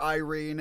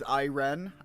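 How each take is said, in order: First: The name ends with a long ee sound. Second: The name sounds like the word iron. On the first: This is how others mistakenly say the username. The speaker calls it wrong. "will not call me Iren, despite being told otherwise" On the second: This is the intended pronunciation of the username. The speaker calls it right. "usually intended to be pronounced like in the vein of iron"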